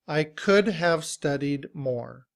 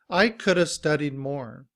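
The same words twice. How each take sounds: First: 'Could have' is pronounced in full. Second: 'Could have' is reduced to 'coulda'. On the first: "citation form" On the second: "in reduced form, we reduce it to coulda"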